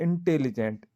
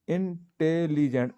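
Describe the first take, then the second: First: Said in the usual way. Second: इंटेलिजेंट said slowly, leaning on the opening इं sound; teacher sounding out इंटेलिजेंट slowly; slow, careful pronunciation. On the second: Shown as a demonstration. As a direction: draw out इंटेलिजेंट so the vowel at the start is clearly heard. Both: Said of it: "अब ई की ध्वनि आ रही है".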